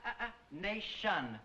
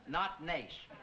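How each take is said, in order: First: "nation" cut short, imitating the student; mocking clipped word. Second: "nation" said with every syllable clear; full syllables. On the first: Teacher mimicking the Italian student's clipped word. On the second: Teacher showing the correct form, full syllables. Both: Shown as a demonstration. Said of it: "Pronounce all the syllables".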